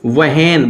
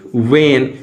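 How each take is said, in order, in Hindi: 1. w के बाद h की ध्वनि सुनाई देती है। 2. w के बाद h की ध्वनि सुनाई नहीं देती। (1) "but it's not real pronunciation" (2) "यहां से हमने हो हटाया तो क्या बन गया भाई वेन"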